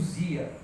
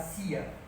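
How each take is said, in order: First: The syllable starts with a z sound. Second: The syllable starts with an s sound. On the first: The speaker calls it wrong. "Brasil fala S como Z" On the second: The speaker calls it right. "Ele fala o, o som de S e A como C e A"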